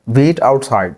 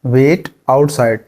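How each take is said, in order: First: Said in the usual way. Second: Each syllable stretched out; very slow. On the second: Shown as a demonstration. Teacher drills the phrase slowly for learners. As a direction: say it very slowly and carefully. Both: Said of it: "बाहर इंतजार करो".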